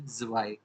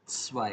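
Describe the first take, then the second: First: The word begins with a voiced z sound. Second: The word begins with a hissing s sound. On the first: The speaker calls it wrong. "लेकिन वो गलत है" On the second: The speaker calls it right. "हम इसको बोलते हैं स्वाई"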